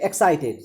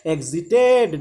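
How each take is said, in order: First: It is said with a k sound before s. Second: It is said with no k sound before s. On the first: The speaker calls it wrong. "very often students uh, pronounce it excited" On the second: The speaker calls it right. "it is not excited, it is exit"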